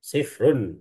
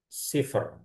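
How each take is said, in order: First: The word ends with an extra '-un' syllable. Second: The word ends on a bare 'r' sound. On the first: The speaker calls it wrong. "ro-nya sifrun" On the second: The speaker calls it right. "harusnya jadi cipher"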